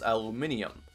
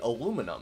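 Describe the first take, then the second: First: The word is said with five syllables. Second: The word is said with four syllables. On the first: This is the British way of saying it. "they pronounce the word for a specific metal as aluminium" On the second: This is the American way of saying it. "We say aluminum"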